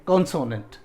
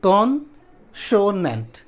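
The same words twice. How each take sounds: First: Said in the usual way. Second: कॉन्सोनेंट slowly as कॉन, सो, नेंट; syllable breakdown. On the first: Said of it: "ये जो बोल रहे हैं हम लोग". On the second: Shown as a demonstration. Teacher showing a three-syllable word, slowly separated. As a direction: put gaps between the syllables of कॉन्सोनेंट. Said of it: "तीन syllable का है".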